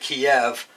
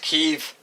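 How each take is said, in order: First: The name is said the older English way. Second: The name is said the newer way. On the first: This is how the speaker always said it. "I always pronounced it Kiev" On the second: This is how it is said on TV now. "I hear it pronounced on T V as Kyiv"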